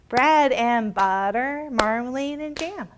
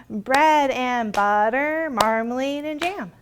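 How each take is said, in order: The two takes are said the same way.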